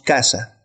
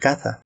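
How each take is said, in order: First: The s is a plain hissing s. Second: The s is lisped like English th.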